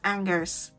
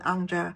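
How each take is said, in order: First: It is read as an English word. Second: It is said with a French pronunciation. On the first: "it's like spelled as" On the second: "if it's related to the place in France"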